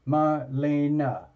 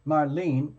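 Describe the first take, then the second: First: Marlena slowly broken up, mar-LAY-nuh; three syllables. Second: Marlene said slowly as mar-LEEN; two measured syllables in Marlene, ending on "leen". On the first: Host offering a client the other option, Marlena as slow mar-LAY-nuh. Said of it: "Like three syllables". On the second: Host offering a client one option, Marlene as slow two-syllable mar-LEEN. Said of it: "Like two syllables?". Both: Shown as a demonstration.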